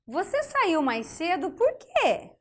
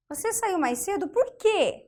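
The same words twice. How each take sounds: First: Slow example read. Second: Said in the usual way. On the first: Shown as a demonstration. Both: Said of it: "Olha só".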